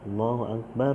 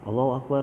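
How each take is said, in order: First: The phrase is said slowly. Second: The phrase is said quickly. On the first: The speaker calls it right. "agak dilambatin juga" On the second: The speaker calls it wrong. "jangan cepet-cepet"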